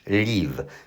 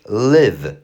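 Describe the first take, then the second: First: The vowel is not a short i sound. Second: The vowel is a short i sound. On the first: The speaker calls it wrong. "nie mówisz live" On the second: The speaker calls it right. "przez y"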